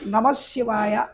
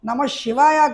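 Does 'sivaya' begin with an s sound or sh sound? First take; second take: s sound; sh sound. First: Sivaya begins with an s sound. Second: Sivaya begins with an sh sound. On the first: The speaker calls it right. "సీతో చక్కగా పలకాలి" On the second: The speaker calls it wrong. "కొంతమంది షకారం షా ఉపయోగిస్తారు, నమ శివాయ కాదు"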